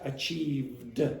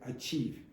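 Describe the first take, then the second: First: The word ends with a clear d sound. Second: The word ends without a final d sound. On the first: It marks the past tense. The speaker calls it right. "in the past you're going to have that d sound" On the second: It sounds like the present tense. The speaker calls it wrong. "there's not a d sound at the end"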